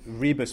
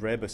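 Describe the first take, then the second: First: The name is said with a Scots-style pronunciation. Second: The name is said with a Polish-style pronunciation. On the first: It makes the name sound Scottish. "Rebus makes it sound more Scots" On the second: It treats the name as Polish. "and Rebus if you want to go for the Polish"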